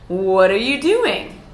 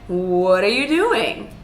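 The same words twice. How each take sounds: First: The pitch goes up, then falls at the end. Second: The same.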